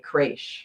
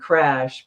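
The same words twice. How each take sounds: First: The vowel sounds almost like a long A. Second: The vowel is a plain short A. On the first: "almost like an A, like a long A" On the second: "instead of saying crash"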